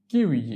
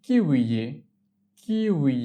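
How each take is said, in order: First: Said in the usual way. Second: Slow, lengthened "kiwi" for learners; drawn-out model. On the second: Shown as a demonstration. Teacher models the K word for learners, drawn out. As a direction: stretch out each syllable of "kiwi".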